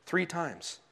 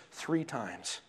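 No difference in how they are said.

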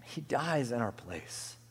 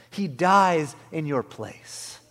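First: Soft, slow and solemn; subdued, weighty reverence; hushed repeat. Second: Loud, slow proclamation; emphatic, drawn-out pulpit climax; loud preaching. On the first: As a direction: let it fall quietly, word by word. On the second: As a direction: drive each word home to the congregation. Climax, then hushed repeat. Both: Real, not acted.

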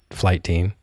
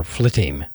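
First: "Flight Team" said as two clear words, flight then team. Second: "Flitteam" blended into one word, flit-team; run together as one word. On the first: Host unsure of a listener's name, says "Flight Team" as two words. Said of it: "I hope I'm pronouncing that right". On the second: Host tries a second reading of the name, "Flitteam" as one word. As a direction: say "Flitteam" as a single quick word with the t's merged. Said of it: "it's either that or Flitteam". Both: Shown as a demonstration.

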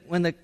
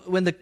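Both takes have the same delivery.

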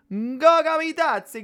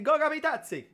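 First: High, slow Italian accent. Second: Italian accent. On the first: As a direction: roll the name out like an Italian. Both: Shown as a demonstration. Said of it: "tiene que decirlo con el acento italiano".

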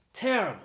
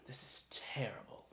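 First: "Terrible." burst out much higher and louder; angry outburst. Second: Hushed breathy "This is terrible." muttered to himself; whispered disgust. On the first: Lord raging at his daughter over the amulet, shouting. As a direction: explode on "Terrible" in fury. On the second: Lord inspecting the damaged amulet, whispering in disgust. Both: Acted.

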